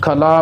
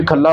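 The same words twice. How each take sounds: First: ਖੱਲਾ with a single l, "khala"; loose pronunciation. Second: ਖੱਲਾ with doubled l, "khalla"; tight pronunciation. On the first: Teacher showing what to avoid, loose single-l ਖੱਲਾ. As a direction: let the l in ਖੱਲਾ go slack. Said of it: "ਖੱਲਾ ਪਾਠ ਨਹੀਂ ਕਰਨਾ". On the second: Teacher showing the correct word, slightly tightened ਖੱਲਾ. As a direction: press a little on the l in ਖੱਲਾ. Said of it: "ਥੋੜ੍ਹਾ ਕੱਸ ਕੇ". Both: Shown as a demonstration.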